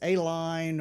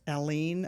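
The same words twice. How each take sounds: First: It begins with 'ay', like the letter A. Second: It is said the local way, without 'ay'. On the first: This is how outsiders say it. The speaker calls it wrong. "people say it as A-line" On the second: This is how people from the area say it. The speaker calls it right. "there's a town near me that's Aline"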